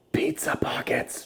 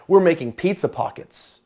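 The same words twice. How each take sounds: First: Breathy whispered echo. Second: Said in the usual way. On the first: Pretend. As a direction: whisper it like a secret.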